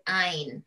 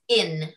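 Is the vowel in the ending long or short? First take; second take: long; short. First: The ending is said with a long vowel. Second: The ending is said with a short vowel. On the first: This is the everyday American way of saying it. The speaker calls it wrong. "as Americans usually pronounce it ein" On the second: This is the way used for drug names. The speaker calls it right. "We pronounce it when it comes to drugs in"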